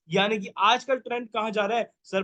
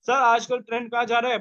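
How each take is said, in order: First: Said in the usual way. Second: आजकल pushed, whole question louder; teacher repeats the question louder, stressing आजकल. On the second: Shown as a demonstration. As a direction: ask it again louder so the class answers.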